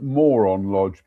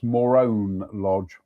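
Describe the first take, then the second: First: The name sounds like the English word moron. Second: The name sounds unlike the English word moron. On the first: The speaker calls it wrong. "I want to call it Moron Lodge" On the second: The speaker calls it right. "but I think it's Morone Lodge"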